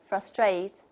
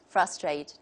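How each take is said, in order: First: The stress is on the second syllable. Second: The stress is on the first syllable. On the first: "the stress is on the second syllable" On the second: "the opposite"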